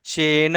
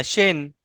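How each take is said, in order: First: शेन with a heavy push on the final न; overstressed ending in शेन; wrong stressed way. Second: Said in the usual way. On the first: Shown as a demonstration. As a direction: lean hard on the end of शेन, the way not to say it. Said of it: "ऐसे नहीं बोलना". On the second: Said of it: "बस इतना बोलना".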